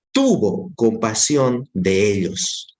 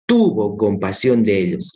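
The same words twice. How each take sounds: First: Slow, weighty reading of the verse; slow emphatic quote. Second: Said in the usual way. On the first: Shown as a demonstration. Preacher reading the verse to the congregation, slow and weighty. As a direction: let each word of "Tuvo compasión de ellos" land slowly.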